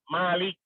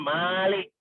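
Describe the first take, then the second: First: The vowel after the m is short. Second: The vowel after the m is long. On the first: It means simply a king. "jangan dipanjangkan mimnya" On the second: It means the one who owns and rules everything. "mimnya itu panjang. Dibacanya malik ya begitu"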